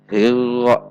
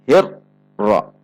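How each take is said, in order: First: The r has no trill at all. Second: The r is cut off abruptly with a break. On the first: "Contoh yang dihilangkan" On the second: "dihentak membacanya seperti huruf syiddah"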